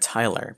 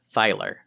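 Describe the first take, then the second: First: The name begins with a plain t sound. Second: The name begins with a th sound.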